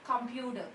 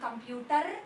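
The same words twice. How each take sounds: First: The final R sound is silent. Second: The final R sound is pronounced. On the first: The speaker calls it right. "It is computer" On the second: The speaker calls it wrong. "It is not computer"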